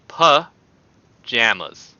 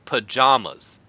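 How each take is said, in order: First: "pajamas" with the JAM of strawberry jam; short-A pronunciation. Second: "pajamas" with second syllable JAH; broad-A pronunciation. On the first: Contrasting his own way of saying it, "pajamas" with JAM. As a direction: say "pajamas" slowly, second vowel as in cat. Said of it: "I say pajamas". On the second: Giving the opposing way to his own, "pajamas" as pa-JAH-mas. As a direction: say "pajamas" with an open ah as in father. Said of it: "as opposed to". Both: Shown as a demonstration.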